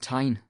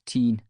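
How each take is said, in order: First: The vowel sounds like 'eye'. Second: The vowel sounds like 'ee'. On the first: This is how the river is called today. "Everyone calls the river the Tyne" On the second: This is how the river was called long ago. "Back then, we pronounced it Teen"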